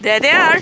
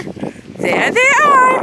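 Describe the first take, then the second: First: Said in the usual way. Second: Slow stretched sing-song; drawn-out playful. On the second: Real, not acted.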